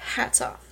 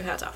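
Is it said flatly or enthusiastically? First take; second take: enthusiastically; flatly. First: It is said with enthusiasm and flair. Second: It is said flatly, without enthusiasm.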